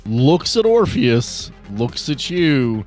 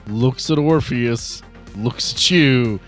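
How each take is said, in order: Both takes have the same delivery.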